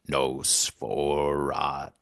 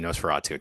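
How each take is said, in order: First: It is said in a put-on character voice. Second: It is said in his normal voice.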